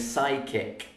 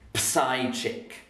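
First: The P and H are not pronounced. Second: Letters that should be silent are pronounced. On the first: The speaker calls it right. "We say psychic" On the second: The speaker calls it wrong. "we don't say psychic"

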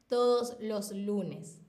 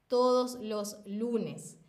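Both takes have the same delivery.

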